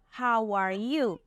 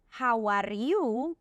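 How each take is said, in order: First: The r is pronounced the English way. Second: The r is pronounced the Spanish way. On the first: "Instead of" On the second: "some people might say"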